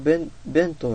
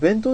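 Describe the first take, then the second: First: The pitch falls within the word. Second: The pitch stays level without falling. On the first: "公式の発音は弁当らしいんですよね。あの、下がる感じ。" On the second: "弁当って言った方がいいんで、言いやすいんですけども"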